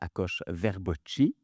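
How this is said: The name is said in an adapted, non-Hungarian way. This is the form he has used since coming to Canada. "C'est pas la vraie prononciation hongroise de mon nom"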